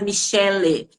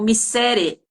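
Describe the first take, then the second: First: The middle consonant is an l sound. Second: The middle consonant is an r sound. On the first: The speaker calls it right. "não conseguia falar Michele" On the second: The speaker calls it wrong. "falavam Missere"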